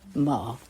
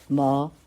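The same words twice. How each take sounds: First: The pitch dips low, then rises. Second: The pitch rises from middle to high.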